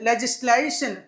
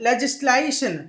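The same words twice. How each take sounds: The two takes are said the same way.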